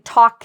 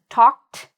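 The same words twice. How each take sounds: First: The ending is not a plain t sound. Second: The ending is a plain t sound. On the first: The speaker calls it wrong. "notice I'm not saying" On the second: The speaker calls it right. "the correct pronunciation"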